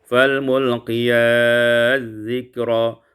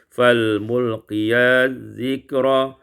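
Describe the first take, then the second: The two takes are said the same way.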